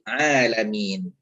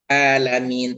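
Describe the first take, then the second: First: The word starts with a clear throaty 'ain. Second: The word starts with a plain vowel. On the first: The speaker calls it right. "Ain harus dibaca jelas ain" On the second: The speaker calls it wrong. "bukan alamin"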